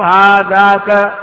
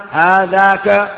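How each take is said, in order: First: هذاك drawn out very slowly, every syllable clear; Arabic: هذاك ببطء وتأكيد; slow stressed demo. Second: Said in the usual way. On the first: Shown as a demonstration. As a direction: stretch هذاك out for the students. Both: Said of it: "أتيت بالكاف وحدها فتقول".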